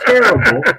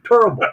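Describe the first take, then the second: First: The first vowel sounds like the one in 'ten'. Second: The first vowel sounds like the one in 'turn'.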